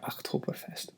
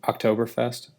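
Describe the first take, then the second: First: It is said with a put-on German accent. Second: It is said in a plain English accent.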